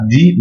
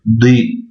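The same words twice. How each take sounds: First: Said in the usual way. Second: "di" with a heavy emphatic d, the vowel opened toward e. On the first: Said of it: "On dira pas di". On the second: Shown as a demonstration. Teacher contrasting the sounds: emphatic "di". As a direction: make the "di" heavy, like the dad. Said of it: "c'est le del emphatique".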